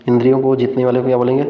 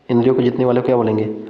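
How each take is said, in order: Both takes have the same delivery.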